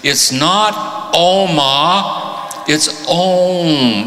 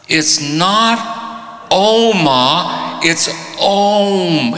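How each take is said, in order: First: High, slow drawn-out Oma then Om. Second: High, very slow drawn-out Oma, then Om; slow repeated Om. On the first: Teacher correcting the man, slow drawn-out Om. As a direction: stretch the vowel of Oma long and slow. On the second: Teacher repeating the correction, high drawn-out Om. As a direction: draw out Oma slowly as if chanting. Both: Retold or imitated.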